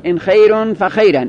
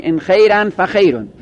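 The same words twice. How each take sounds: First: خیرون ending in -un, فخیرن ending in -an; first nominative, second accusative. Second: خیرن ending in -an, فخیرون ending in -un; first accusative, second nominative. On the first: Teacher contrasting case endings for students, -un then -an. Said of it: "رفع اول و نصب ثانی". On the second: Teacher contrasting case endings for students, -an then -un. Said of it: "نصب اول و رفع ثانی". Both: Shown as a demonstration.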